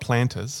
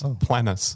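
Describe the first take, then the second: First: The word has a t sound before the ending. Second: The word has no t sound before the ending. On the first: The speaker calls it wrong. "Not plantus" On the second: The speaker calls it right.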